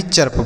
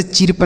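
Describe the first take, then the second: First: चर्प with "uh" before the r; correct reading. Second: चिरप with a short "i" vowel; wrong reading. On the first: Teacher corrects the reading for students, चर्प with uh vowel. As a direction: say चर्प as "churp". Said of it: "चिरप नहीं चर्प पढ़ेंगे". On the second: Teacher warns students off a misreading, चिरप with i sound. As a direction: say चिरप, "chirp" read as chi-rp. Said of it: "इसे चिरप नहीं चर्प पढ़ेंगे". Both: Shown as a demonstration.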